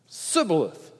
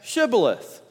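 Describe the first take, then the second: First: The word begins with a plain 's' sound. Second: The word begins with an 'sh' sound. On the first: The speaker calls it wrong. "because they couldn't say the H" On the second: The speaker calls it right. "say Shibboleth"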